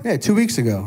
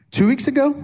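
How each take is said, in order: First: "two weeks ago" back at normal pitch, settled; confirming. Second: "two weeks ago" lifted high as a question; unsure, checking. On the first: Husband confirming the anniversary date, settled fall on "two weeks ago". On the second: Husband checking his anniversary date with wife, questioning lift on "two weeks ago". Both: Real, not acted.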